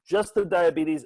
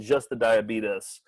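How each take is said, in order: First: A long "teez" ending on diabetes; standard pronunciation. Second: Diabetes said "die-a-BEE-tus", slowly; a short "tus" ending on diabetes; Brimley-style pronunciation. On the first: Naming one edit, diabetes as "die-a-BEE-teez". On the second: Naming the other edit, diabetes as "die-a-BEE-tus". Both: Shown as a demonstration. Contrasting the two edited pronunciations.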